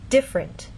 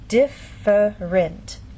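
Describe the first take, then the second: First: It is said quickly with two syllables. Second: It is said slowly with three syllables. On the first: "in fast speech, you lose that middle sound" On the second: "In very slow, careful speech, and especially formal speech"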